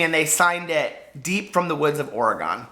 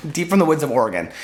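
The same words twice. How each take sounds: First: Said in the usual way. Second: Louder, ominous storybook delivery; mock spooky. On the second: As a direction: relish it like a campfire tale. Re-says signature dramatically.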